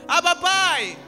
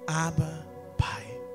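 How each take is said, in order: First: It is said in a distant, formal way. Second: It is said in a close, intimate way. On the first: It is a formal address to a remote father. The speaker calls it wrong. "Aí você pensa que é assim" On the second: It is a child's tender call to a daddy. The speaker calls it right. "Essa pronúncia aqui é uma pronúncia de intimidade"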